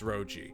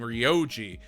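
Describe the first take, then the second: First: The name begins with a plain 'ro' sound. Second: The name begins with a 'ryo' sound. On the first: The speaker calls it right. "but it's Roji" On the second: The speaker calls it wrong. "I always mispronounce it as Muhyo and Ryoji"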